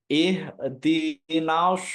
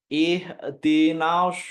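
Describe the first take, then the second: The two takes are said the same way.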